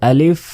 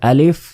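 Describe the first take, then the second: No difference in how they are said.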